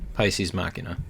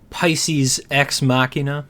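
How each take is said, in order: First: The X is left out between the two words. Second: The X is pronounced between the two words. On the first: The speaker calls it right. "you're not supposed to say it at all" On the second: The speaker calls it wrong. "I pronounce the X"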